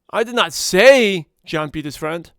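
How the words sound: The word say carries the main stress. It may have been hinted at, not said. "if I emphasize the word say"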